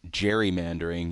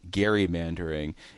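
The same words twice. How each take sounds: First: The word begins with a soft J-like sound. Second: The word begins with a hard G sound. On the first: This is how most people say it. "while they might be saying gerrymandering" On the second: This follows the original name Gerry. "you lean into the gerrymandering"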